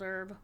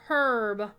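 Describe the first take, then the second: First: The word is said the American way. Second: The word is said the British way.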